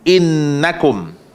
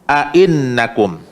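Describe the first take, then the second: First: The word starts directly with the 'in' syllable. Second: An extra 'a' and glottal stop come first. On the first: "baca dengan hamzah sahaja satu" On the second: "dua hamzah, iaitu hamzah pertama dengan baris fathah"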